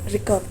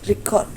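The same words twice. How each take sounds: First: The stress is on the first syllable. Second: The stress is on the second syllable. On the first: It is a noun. "kalau di kata benda tuh record" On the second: It is a verb. "kalau di kata kerja tuh record"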